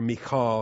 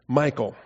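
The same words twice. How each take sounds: First: The name is said in a feminine-sounding way. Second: The name is said in a masculine-sounding way.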